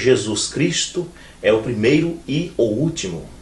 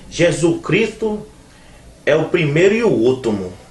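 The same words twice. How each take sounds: First: The words are pronounced in a standard, careful way. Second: The words are pronounced in a nonstandard, colloquial way. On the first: The speaker calls it right. "Devia ser" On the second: The speaker calls it wrong. "se eu disser assim errado"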